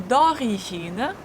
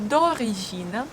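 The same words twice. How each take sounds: Both takes have the same delivery.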